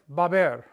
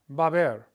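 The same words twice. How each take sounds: First: The words merge quickly into two syllables. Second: The words merge quickly into two syllables.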